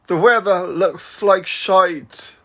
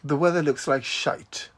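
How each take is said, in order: First: It is said in an attempted Southern US accent. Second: It is said in the speaker's usual accent.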